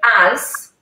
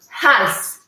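First: The word begins directly with a vowel. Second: The word begins with a breathy h sound. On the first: "And this word als" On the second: "it was pronounced with an initial breathy sound"

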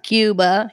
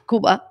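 First: It is said with an English pronunciation. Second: It is said with a Spanish pronunciation. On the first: The speaker calls it wrong. "not Cuba" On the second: The speaker calls it right. "he would say Cuba"

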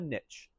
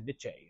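First: Niche is said in a plain, everyday way. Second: Niche is said with the final E sounded. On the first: "You don't want to sound pretentious, call it a niche" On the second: "You don't pronounce the E, so you can't say like"

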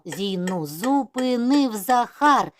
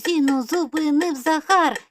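First: It is spoken at a fast pace. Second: It is spoken at a very fast pace. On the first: "І ще швидше" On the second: "І дуже-дуже швидко"

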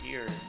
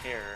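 First: The word sounds like ear, with no h. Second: The word sounds like hair, with an h. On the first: "not ear" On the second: "or hair"

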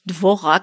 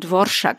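First: The middle consonant is a plain r sound. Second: The middle consonant is an r-sh sound. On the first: The speaker calls it wrong. "nicht Dvorak" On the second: The speaker calls it right. "sondern Dvorschak ausspricht"

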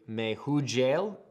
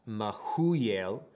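First: The middle is said with a J sound. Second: The middle is said without a J sound. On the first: "we would say Mehujael" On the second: "the J is silent. So that's Mehuyel"

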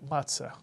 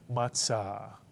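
First: It is said in the common everyday pronunciation. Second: It is said in the Sephardic Hebrew pronunciation. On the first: "Many people say matzah. That's okay"

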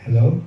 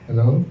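Both takes have the same delivery.

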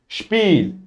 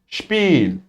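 First: The word begins with a sh sound. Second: The word begins with a sh sound.

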